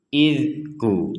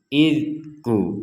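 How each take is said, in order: The two takes are said the same way.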